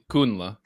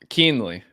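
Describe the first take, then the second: First: The surname is said with the original German pronunciation. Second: The surname is said with an Americanized pronunciation. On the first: This is how it was said before it changed. "would be the pronounced the the normal way" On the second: This is how the family says it now. "Ellis Island Americanized it"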